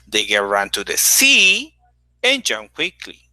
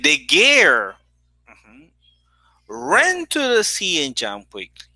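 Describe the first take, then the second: First: The word sea carries the main stress. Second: The word girl carries the main stress. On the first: She went to the sea, not another place. "Not to another place, it was to the sea" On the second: It was that girl, not another person. "Here the stress is on girl"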